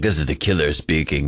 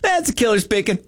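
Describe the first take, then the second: First: It is said in a heavy, dramatic way. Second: It is said in a light, casual way.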